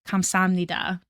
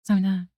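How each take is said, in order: First: Every syllable is pronounced clearly and fully. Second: The first syllable is barely said or dropped. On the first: This is the textbook form. "thank you is" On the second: This is how people casually say it. "when they actually say it ... they might not even say the first syllable"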